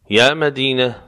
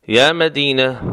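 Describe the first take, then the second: No difference in how they are said.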